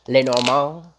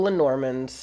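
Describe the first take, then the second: First: Louder put-on French accent. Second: Said in the usual way. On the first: Shown as a demonstration. Tarot reader trying out the card deck's name, French accent. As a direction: say Lenormand with a French lilt, rising. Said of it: "Like, with a French accent?". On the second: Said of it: "Is that how you say it in French?".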